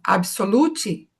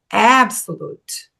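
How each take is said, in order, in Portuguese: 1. A tônica está na última sílaba. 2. A tônica está na primeira sílaba. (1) "as pessoas falam absolute" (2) "e é absolute"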